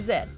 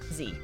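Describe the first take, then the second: First: The letter is said the Canadian way, 'zed'. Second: The letter is said the American way, 'zee'.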